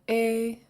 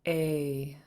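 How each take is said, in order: First: The long vowel is said on a high pitch. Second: The long vowel is said on a low pitch. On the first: "And now a high tone" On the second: "And then the long version"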